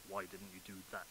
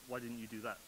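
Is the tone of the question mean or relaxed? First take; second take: mean; relaxed. First: The question is asked in a mean, accusing tone. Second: The question is asked in a relaxed, friendly tone. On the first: It comes across as criticism, the way written text can read. The speaker calls it wrong. "it sounds much more like, ... I'm not very good at a mean voice" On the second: A casual, friendly question to a colleague. The speaker calls it right. "That sounds reasonable because you can hear my tone. I sound fairly relaxed"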